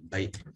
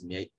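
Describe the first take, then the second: First: The name begins with a 'b' sound. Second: The name begins with an 'm' sound. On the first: This is the everyday way of saying the name. "but probably Bay" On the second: This is the formal way of saying the name. "in formal context, you might refer to it as Mie"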